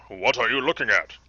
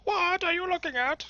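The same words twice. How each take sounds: First: Loud, put-on challenge; trial character voice. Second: Very high, squeaky put-on voice; squirrely character. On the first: Player tries a voice for a game character, loud put-on voice. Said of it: "How about this?". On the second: Player gives a squirrely game character a very high put-on voice. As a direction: make it a high-pitched squirrelly little fellow. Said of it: "He looks more squirrely".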